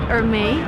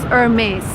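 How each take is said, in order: First: The word ends without an S sound. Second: The word ends with an S sound. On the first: The speaker calls it wrong. "I would suppose you pronounce it Hermès" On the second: The speaker calls it right. "You actually pronounce the last S. It's Hermes"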